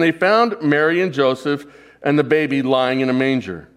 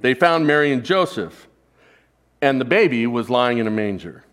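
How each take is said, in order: First: It runs on without a pause after Joseph. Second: There is a pause after Joseph.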